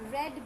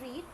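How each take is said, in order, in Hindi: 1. स्वर छोटा है, 'red' जैसा। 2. स्वर लंबा है, 'reed' जैसा। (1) "सेकंड और थर्ड को क्या बोलते हैं? रेड बोलते हैं" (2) "फर्स्ट फॉर्म को बोलते हैं रीड"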